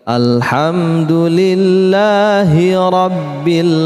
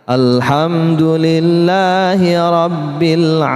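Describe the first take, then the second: Both takes have the same delivery.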